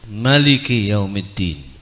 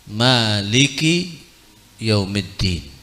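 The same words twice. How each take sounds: First: The vowel after the m is short. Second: The vowel after the m is long. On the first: "atau tanpa alif" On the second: "dengan alif mimnya"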